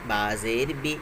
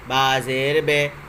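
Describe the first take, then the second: First: The final syllable ends in a short 'i' vowel. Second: The final syllable ends in an 'e' vowel. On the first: The speaker calls it right. "मारूफ मतलब सही पढ़ना" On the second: The speaker calls it wrong. "मजहूल कहते हैं गलत पढ़ने को"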